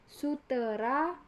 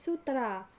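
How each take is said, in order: First: A vowel e is heard between t and r. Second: No vowel is heard between t and r. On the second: "penghilangan fonem E"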